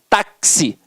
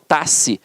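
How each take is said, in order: First: The X is sounded as K plus S. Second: The X is a single consonant sound. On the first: The speaker calls it right. "ele tem um som de K S" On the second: The speaker calls it wrong. "eu não falo taxi"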